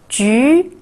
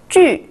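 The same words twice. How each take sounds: First: The pitch rises from mid to high. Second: The pitch falls sharply from high.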